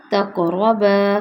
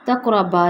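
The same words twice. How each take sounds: First: تقربا slow with a long final baa; correct recitation. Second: تقربا with a clipped baa; the mistaken short تقربا; what not to say; wrong short reading. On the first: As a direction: hold the alif in تقربا. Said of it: "با الف سے ہوگا". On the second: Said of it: "تقربا نہیں ہوگا". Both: Shown as a demonstration.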